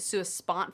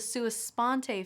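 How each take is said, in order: First: The word ends without a final vowel sound. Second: The word ends with a final vowel sound. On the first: The speaker calls it wrong. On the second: The speaker calls it right.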